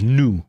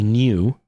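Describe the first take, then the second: First: "new" with no y-glide, noo; American-style new. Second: "new" with a y-glide, nyoo; British-style new. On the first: Quoting the friend who got mad, American-style "new". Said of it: "new is the American way of saying it". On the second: Explaining a disputed word to viewers, British-style "new". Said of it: "like, the British way of saying it". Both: Shown as a demonstration.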